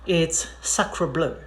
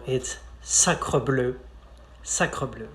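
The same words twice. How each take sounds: First: "sacre bleu" said with an English R and vowels; anglicised "sacre bleu"; English-style sacre bleu. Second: "sacre bleu" slow, with a French throat R; careful French "sacre bleu". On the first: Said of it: "maybe you guessed it". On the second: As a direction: model French pronunciation. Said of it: "First of all". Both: Shown as a demonstration.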